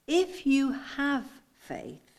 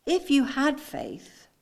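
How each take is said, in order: First: Very slow, higher "If you have faith"; stress on have. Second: Slow "If you had faith", raised pitch; "had" weighed slowly and deliberately; stress on had. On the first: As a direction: stretch "If you have" with deliberate weight. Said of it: "Can you see the difference?". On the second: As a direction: lean on "had" as a doubtful condition. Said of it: "I want you to get the inflection in my voice". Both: Shown as a demonstration.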